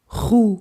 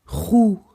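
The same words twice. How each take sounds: Both takes have the same delivery.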